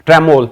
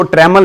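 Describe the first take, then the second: First: ट्रेमोल ending in a round, long "-mole"; correct pronunciation. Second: ट्रेमल ending in a short, weak "-mal"; wrong pronunciation. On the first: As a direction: say ट्रेमोल as "tre-MOLE", full o. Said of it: "इसको ट्रेमल नहीं बोलेंगे". (ट्रेमोल के अंत में लंबा 'मोल' बोलें) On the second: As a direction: say ट्रेमल as "TRE-mul", short second vowel. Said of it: "इसको ट्रेमल नहीं बोलेंगे भाई". (ट्रेमल के अंत में छोटा 'मल' बोलें) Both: Shown as a demonstration.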